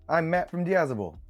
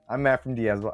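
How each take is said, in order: First: It is said in a put-on Australian accent. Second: It is said in the speaker's plain accent.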